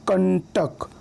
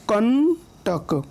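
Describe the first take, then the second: First: Said in the usual way. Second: कंटक very slow, held on कं, then टक apart; split pronunciation. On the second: Shown as a demonstration. Teacher showing where the anusvara sounds, कंटक slowly split after कं. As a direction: stretch the nasal in कंटक, pause before टक. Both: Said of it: "क के बाद उसका उच्चारण हो रहा है".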